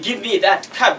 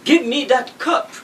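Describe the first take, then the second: First: Cup is said with an American-style vowel. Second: Cup is said with a plain uh vowel. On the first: The speaker calls it wrong. "because I want to speak American English" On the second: The speaker calls it right.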